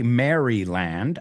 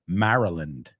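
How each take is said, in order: First: The first part sounds like the name Mary. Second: The first part is reduced to sound like Mara. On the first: The speaker calls it wrong. "We don't say Maryland" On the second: The speaker calls it right. "it's Mara, Maryland"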